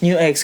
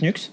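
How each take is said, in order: First: The name is said as two syllables, new ex. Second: The name is said as one syllable, nux. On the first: This is the English way of saying it. "because we're British" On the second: This is the French way of saying it. "on est français donc Nux"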